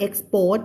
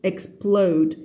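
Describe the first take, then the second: First: "export" said for explode, with the l left out; dropped L. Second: "explode" with the p and l both clearly sounded; clear L cluster. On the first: Teacher showing students the mistake, "export" with no l sound. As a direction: say "export" as a learner's explode without the l. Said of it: "ไม่พูดว่า export ไม่ใช่". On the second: Teacher correcting students' export, "explode" with a clear pl. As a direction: say "explode" carefully, keeping every consonant. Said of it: "ต้องออกให้ชัดนะคะ". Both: Shown as a demonstration.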